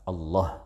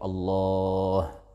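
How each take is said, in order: First: The vowel after the l is cut short. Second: The vowel after the l is stretched very long. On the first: The speaker calls it wrong. "asalkan tidak dibaca Allah" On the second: The speaker calls it right. "atau lebih panjang dari itu"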